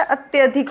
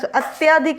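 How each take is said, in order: First: अत्यधिक with a short a: at-ya-dhik; correct pronunciation. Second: अत्यधिक with a long aa after "ty": at-yaa-dhik; wrong pronunciation. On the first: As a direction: keep "tya" short in अत्यधिक. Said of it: "होता है". (अत्यधिक में "त्य" छोटा बोलें) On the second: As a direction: stretch the second vowel of अत्यधिक to aa. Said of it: "अत्यधिक नहीं होता". (अत्यधिक में "त्या" को लंबा बोलें) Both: Shown as a demonstration.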